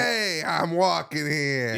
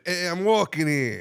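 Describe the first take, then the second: First: Drawn-out New York protest with attitude; cocky, slow New York accent. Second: Higher, slower New York call; toned-down New York pedestrian's protest; New York accent. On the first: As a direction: stretch it slowly, full of attitude. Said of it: "The attitude's what I like". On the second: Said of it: "You said it a little different". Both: Acted.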